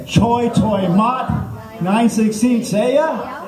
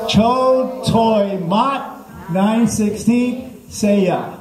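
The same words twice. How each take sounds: First: High, drawn-out mock annoyance; slow recitation with a kinda-mad edge; with attitude. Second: Very slow, high, stretched syllables; mock language-lesson recitation. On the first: Comic coaching crowd as unhappy stranded driver, mock annoyed recitation. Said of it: "say it with a little bit of attitude". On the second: Comic leading the crowd's repeat, slow high recitation. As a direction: lead the class word by word, high and drawn out. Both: Shown as a demonstration.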